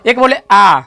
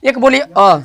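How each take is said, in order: First: "आ" held longer than "अ"; long vowel. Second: "अ" as a single short beat; short vowel. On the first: Teacher comparing vowel timing for learners, long "आ". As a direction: draw "आ" out to two beats. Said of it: "एकरा से ज़्यादा एकरा में". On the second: Teacher asking how much time it takes, short "अ". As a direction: keep "अ" brief. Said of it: "देखिए कितना समय लगा अ". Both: Shown as a demonstration.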